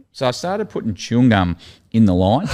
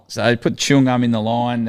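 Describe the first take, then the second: First: Laughs through the line, half giggling; can barely keep a straight face; laughing while telling. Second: Said in the usual way. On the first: Real, not acted. Telling the podcast host about the chewing gum prank, laughing. Recalling his own prank.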